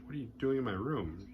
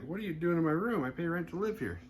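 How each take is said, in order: First: Said in the usual way. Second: High-pitched mock indignation; higher, retold outraged challenge; indignant. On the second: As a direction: protest like an affronted tenant. Herbert indignantly challenges the intruder.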